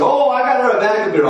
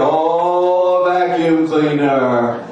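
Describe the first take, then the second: First: Higher, louder, fast and pleased; proud husband. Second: Slow, louder, let-down repeat; unimpressed wife. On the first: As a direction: rattle it off like a husband proud of his gift. Husband brags about gift. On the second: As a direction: drag out the words like a disappointed wife. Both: Retold or imitated.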